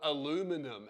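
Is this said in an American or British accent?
American. It is said with an American pronunciation. The speaker calls it wrong. "I'm gonna call it aluminum"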